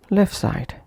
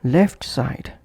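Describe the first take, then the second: First: LEFT SIDE as "lef side"; dropped T. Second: LEFT SIDE with the t of LEFT released; full final T. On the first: Teacher showing connected pronunciation, dropped T. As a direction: push "lef" straight into "side". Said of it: "omitting T or T completely". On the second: Teacher showing separate words, full final T. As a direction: say "left" fully, then "side". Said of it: "pronounced as". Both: Shown as a demonstration.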